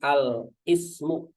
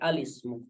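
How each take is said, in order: First: The 'i' is said separately after al. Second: The words are joined into one smooth word. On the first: The speaker calls it wrong. "bukan al ismu" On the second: The speaker calls it right. "tapi alismu"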